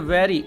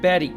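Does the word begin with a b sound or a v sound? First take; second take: v sound; b sound. First: The word begins with a v sound. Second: The word begins with a b sound. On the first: The speaker calls it right. "तो हम बोलेंगे वेरी" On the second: The speaker calls it wrong. "Not बैरी"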